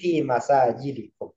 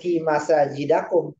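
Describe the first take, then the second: First: The vowel after 'masajid' is an 'i'. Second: The vowel after 'masajid' is an 'a'. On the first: The speaker calls it right. "tapi fi masajidikum" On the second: The speaker calls it wrong. "Bukan fi masajidakum"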